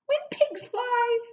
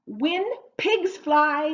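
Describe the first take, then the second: First: Very high, slow silly voice; high-pitched repeat. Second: Slow, raised, emphatic delivery; slow model phrase. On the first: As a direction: send the whole phrase way up high. Teacher repeats idiom playfully high. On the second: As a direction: present it loudly, one word at a time. Teacher introduces idiom, first take. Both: Shown as a demonstration.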